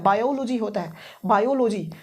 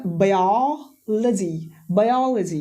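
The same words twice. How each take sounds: First: बायोलॉजी as BAA-yo-lo-jee; two full O sounds in बायोलॉजी; retold correction. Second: बायोलॉजी as buh-YAA-luh-jee; stress on second syllable. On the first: People correct him in his story, बायोलॉजी as baa-yo-lo-jee. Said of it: "बायोलॉजी नहीं होता है". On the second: Shown as a demonstration. Teacher drills the proper stress, बायोलॉजी as buh-YAA-luh-jee. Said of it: "इस वाले stress करेंगे ओ sound पे".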